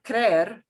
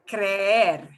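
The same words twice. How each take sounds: First: The e vowel is said short, once. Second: The e vowel is drawn out, said twice. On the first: The speaker calls it wrong. "instead of creer" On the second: The speaker calls it right. "I'll pronounce them both"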